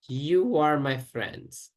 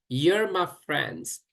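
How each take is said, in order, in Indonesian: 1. You and are diucapkan sebagai dua kata penuh. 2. You and are digabung menjadi satu suku kata.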